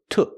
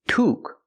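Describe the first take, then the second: First: The vowel is a short uh sound. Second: The vowel is a long ooh sound. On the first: The speaker calls it right. "but uh, uh" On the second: The speaker calls it wrong. "Not ooh"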